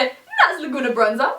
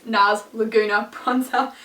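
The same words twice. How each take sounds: First: Said in the usual way. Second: Slow, measured product name; said slowly. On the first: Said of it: "I should say that slowly". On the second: Shown as a demonstration. For viewers who don't know the product, slowly. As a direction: spell it out word by word, unhurried. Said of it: "I should say that slowly for people".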